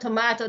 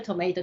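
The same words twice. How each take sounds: First: It is said in a New Zealand accent. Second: It is said in an American accent. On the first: "they kept correcting me tomato" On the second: "I kept saying tomato"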